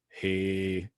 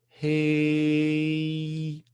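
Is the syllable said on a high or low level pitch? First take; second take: low; high. First: It is held on a low level pitch. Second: It is held on a high level pitch. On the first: "pronounce the same thing with the low note" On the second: "pronounced with the even note and with the even high note"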